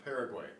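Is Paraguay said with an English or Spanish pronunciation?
English. It is said with an English pronunciation. The speaker calls it wrong. "not Paraguay"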